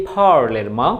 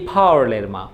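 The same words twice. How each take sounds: Both takes have the same delivery.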